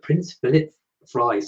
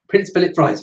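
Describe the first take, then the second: First: The phrase is said at an ordinary pace. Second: The phrase is said very quickly.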